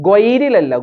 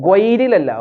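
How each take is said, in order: The two takes are said the same way.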